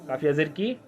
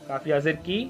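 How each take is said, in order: Both takes have the same delivery.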